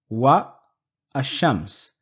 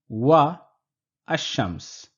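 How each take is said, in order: The two takes are said the same way.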